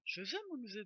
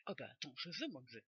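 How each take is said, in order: First: Said in the usual way. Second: "je veux mon neveu" in a lightly put-on southern French accent, lower; a playful Marseille twang; accent du sud taquin. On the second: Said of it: "J'adore l'accent du sud".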